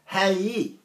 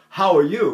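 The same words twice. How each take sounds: First: Texas accent. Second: Said in the usual way. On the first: Shown as a demonstration. Texan explaining how folks back home greet, Texas accent. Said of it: "We say". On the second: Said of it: "we don't say".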